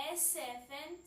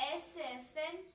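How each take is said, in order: No difference in how they are said.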